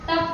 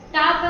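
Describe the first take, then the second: First: The vowel is a short uh sound. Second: The vowel is a long open ah sound. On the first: "ಟಪ್ ಅಂತ ಅನ್ನಲ್ಲ" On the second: "ಟಾಪ್ ಅಂತ ಅನ್ನಲ್ಲ"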